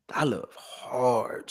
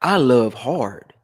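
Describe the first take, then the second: First: "I love hard" softer and very slow; soft slow repeat. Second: "I love hard" slow, I stressed; slow emphatic. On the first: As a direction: let "I love hard" fall to a quiet murmur. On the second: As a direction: lean on I in "I love hard", slowly. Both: Shown as a demonstration.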